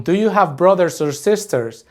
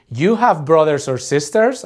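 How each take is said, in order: First: Said in the usual way. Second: Statement word order with "sisters" rising at the end; question intonation. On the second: Shown as a demonstration. Teacher showing learners how Spanish asks questions, with rising question intonation on "sisters". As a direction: lift "sisters" upward to turn it into a question. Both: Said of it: "we'll just intonate it like a question".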